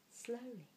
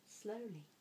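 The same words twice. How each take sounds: The two takes are said the same way.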